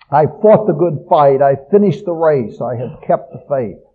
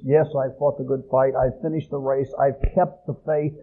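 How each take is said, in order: First: Fought, finished and kept punched loud and proud; stress on the deeds. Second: "Yes" leads, "fought", "finished", "kept" unstressed and quieter; softer humble reading. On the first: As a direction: hit "fought", "finished", "kept" hard as personal achievements. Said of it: "The emphasis on fighting the fight, finishing the course, keeping the faith". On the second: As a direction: say it as a quiet yes, not a boast. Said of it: "Paul's saying is". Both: Shown as a demonstration.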